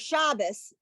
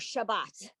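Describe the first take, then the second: First: The word ends with an s sound. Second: The word ends with a t sound.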